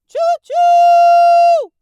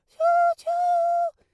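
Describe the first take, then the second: First: It is said with a bright, powerful voice. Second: It is said with a breathy, airy voice.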